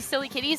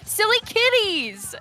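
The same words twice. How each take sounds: First: The name is said flatly, without emphasis. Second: The name is said excitedly, with strong emphasis. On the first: The speaker calls it wrong. "I don't say" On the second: The speaker calls it right. "I say ... You really got to say it with emphasis"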